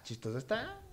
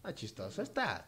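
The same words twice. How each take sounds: First: "chistoso está" repeated higher with a rising tune; playful repeat. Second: Said in the usual way. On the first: Shown as a demonstration. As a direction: echo "chistoso está" higher and lift the end.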